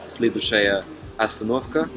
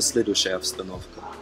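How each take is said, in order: First: Every vowel is pronounced fully and clearly. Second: The unstressed vowels are reduced and shortened. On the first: The speaker calls it wrong. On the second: The speaker calls it right.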